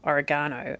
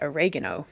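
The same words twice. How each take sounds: First: It uses the British stress pattern. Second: It uses the American stress pattern. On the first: "we say oregano" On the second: "they say oregano, and it's just a different emphasis"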